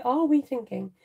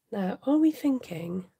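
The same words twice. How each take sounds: First: "we" leaned on as the royal we, falling tune; grand royal "we" in "are we thinking?"; stress on we. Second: Said in the usual way. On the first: Shown as a demonstration. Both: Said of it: "The Royal We".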